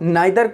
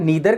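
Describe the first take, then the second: First: The first vowel sounds like 'eye'. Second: The first vowel sounds like 'ee'. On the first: This is the British form. "British English" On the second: This is the American form. "American accent या American English"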